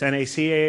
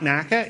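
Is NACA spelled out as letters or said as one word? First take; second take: letters; one word. First: It is spelled out letter by letter. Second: It is said as a single word. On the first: The speaker calls it right. "It is an initialism. It's NACA" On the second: The speaker calls it wrong. "It is not NACA"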